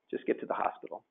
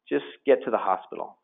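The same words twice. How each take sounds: First: Breathy whisper of "Just get to the hospital"; whispered repeat. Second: Said in the usual way. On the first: Retold or imitated. Husband repeating to wife on phone, whispered.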